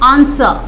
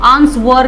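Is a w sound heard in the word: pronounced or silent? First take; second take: silent; pronounced. First: The word is said with no w sound. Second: The word is said with a w sound. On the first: The speaker calls it right. "आंसर डब्ल्यू को silent रखना है" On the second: The speaker calls it wrong. "आंसवर नहीं"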